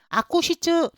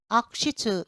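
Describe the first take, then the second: First: The ku syllable is said with a full vowel. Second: The ku syllable is nearly silent, like a weak k. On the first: The speaker calls it wrong. "이게 아니라" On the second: The speaker calls it right. "이렇게 발음하세요. 거의 기역 받침이 약하게 나는 것처럼"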